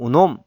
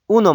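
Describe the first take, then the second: First: The stress is on the last syllable. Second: The stress is on the first syllable. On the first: The speaker calls it right. "강세가 뒤에 있습니다" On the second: The speaker calls it wrong. "우놈 아니고"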